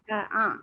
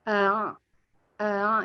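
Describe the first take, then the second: First: Both glottal 'a' sounds are said clearly. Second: The second 'a' is dragged and unclear. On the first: "kan a a" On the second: "a yang keduanya kayak diseret aja"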